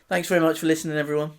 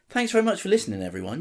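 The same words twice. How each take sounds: First: It is said in a bored, flat way. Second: It is said warmly, like it's meant.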